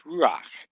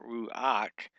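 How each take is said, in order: First: Ruach said short and firm as one syllable, ending in a guttural ch; the correct one-syllable ruach. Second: Ruach drawn out slowly as ru-ach, two syllables; the mistaken two-syllable ruach; wrong two-syllable ruach. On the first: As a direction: clip ruach into a single syllable. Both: Shown as a demonstration. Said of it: "One syllable".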